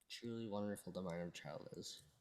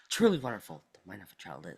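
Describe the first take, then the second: First: It is said in a flat, unexcited way. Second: It is said in a lively, enthusiastic way.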